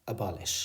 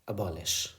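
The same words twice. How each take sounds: Both takes have the same delivery.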